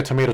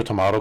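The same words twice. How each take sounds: First: Tomato with a long "ay" in the middle; tomato rhyming with potato; tomayto pronunciation. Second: Tomato with an "ah" in the middle; tomato with a broad middle "ah"; tomahto pronunciation. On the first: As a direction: say tomato as to-MAY-to. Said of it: "tomato kind of thing". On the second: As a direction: say tomato as to-MAH-to. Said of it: "I think it's like a tomato". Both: Shown as a demonstration.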